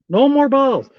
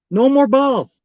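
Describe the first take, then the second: No difference in how they are said.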